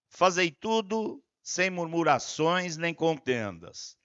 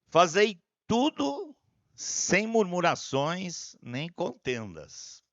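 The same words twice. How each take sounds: First: It is read a bit faster. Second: It is read very slowly.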